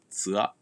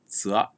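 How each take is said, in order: The two takes are said the same way.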